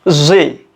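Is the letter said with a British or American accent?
American. It is said the American way, as zee.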